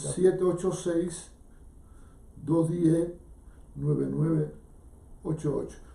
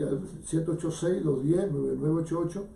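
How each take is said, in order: First: The number is said softly and slowly. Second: The number is said at a faster pace.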